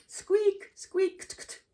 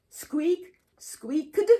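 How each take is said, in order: First: "squeaked" ending in a light T, skweekt; quick T ending. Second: "squeaked" ending with a voiced D, skweekd; awkward D ending. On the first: Teacher showing the easier correct ending. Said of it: "pronounced much easier way". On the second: Teacher showing students the clumsy D version. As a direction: push an awkward D onto "squeaked". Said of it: "try to pronounce this with a D sound". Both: Shown as a demonstration.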